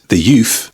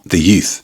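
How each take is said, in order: First: The word youth ends with an f sound. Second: The word youth ends with a th sound. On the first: "Notice how we said the youth" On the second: "and not the youth"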